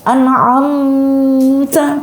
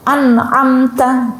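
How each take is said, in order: First: The m is held with a lingering hum. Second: The m is said clearly in one quick beat. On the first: The speaker calls it wrong. "Tidak boleh an'amta. Wah, salah" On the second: The speaker calls it right. "Jadi dibaca cepat satu ketukan"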